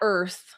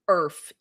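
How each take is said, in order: First: The word ends with a th sound. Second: The word ends with an f sound. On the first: The speaker calls it wrong. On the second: The speaker calls it right. "E A R F"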